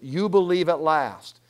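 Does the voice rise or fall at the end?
fall. It ends with a falling, affirming tune.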